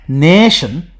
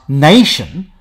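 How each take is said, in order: First: The first vowel is a single steady sound. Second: The first vowel glides as a diphthong. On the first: This is the older form still heard in Scotland. "that's how nation is still pronounced in Scottish English" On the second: This is the later form used in most dialects. "with the diphthong pronunciation of long A"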